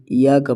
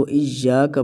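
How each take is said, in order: First: "یا" said with a single light y; ya without doubling. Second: "ایا" with a firm, held double y; doubled y. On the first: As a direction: say "یا" loosely, without stressing the y. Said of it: "بغیر سختی سے ادا کرتے ہیں". ("یا" بغیر سختی کے) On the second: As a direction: lean on the y in "ایا", iy-ya. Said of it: "پڑھنا ہے سختی کے ساتھ". ("ایا" سختی کے ساتھ) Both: Shown as a demonstration.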